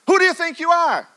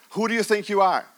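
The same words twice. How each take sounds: First: High, loud and demanding; a sudden high shout of challenge; loud challenging question. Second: Said in the usual way. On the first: Acted. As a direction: hurl the question at them. Preacher repeats question, building.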